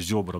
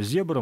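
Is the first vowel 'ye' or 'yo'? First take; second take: yo; ye. First: The first vowel is pronounced as 'yo'. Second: The first vowel is pronounced as 'ye'. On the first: The speaker calls it wrong. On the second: The speaker calls it right.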